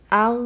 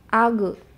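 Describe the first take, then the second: First: The final consonant is held without a bounce. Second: The final consonant is released with a bounce. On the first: The speaker calls it right. "itu sampai ke tenggorokan bagian atas" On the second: The speaker calls it wrong. "dipantulkan seperti itu"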